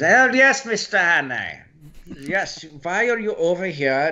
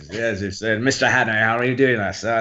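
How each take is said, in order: First: High-pitched German spy accent. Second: Restrained English professor accent; polite English-accented greeting at usual pitch. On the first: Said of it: "go into German". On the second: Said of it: "I had to drop the English accent". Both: Shown as a demonstration.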